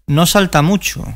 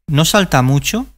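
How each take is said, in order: The two takes are said the same way.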